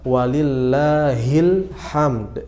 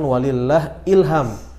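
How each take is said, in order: First: It ends with the separate word 'hamd'. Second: It ends with the merged sound 'ilham'. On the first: The speaker calls it right. "Bacaan yang betul" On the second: The speaker calls it wrong. "bukan walillah ilham. Itu salah ya"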